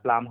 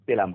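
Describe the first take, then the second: First: The first two consonants are said together. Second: A vowel separates the first two consonants. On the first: The speaker calls it wrong. "উচ্চারণটা প্লাম হবে না" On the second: The speaker calls it right. "পেলাম হবে"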